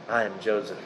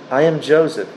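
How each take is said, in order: First: Hushed reveal. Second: Said in the usual way. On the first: Acted. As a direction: lower and much softer, almost breaking. Joseph reveals himself to brothers.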